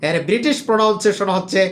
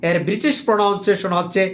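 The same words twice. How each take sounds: No difference in how they are said.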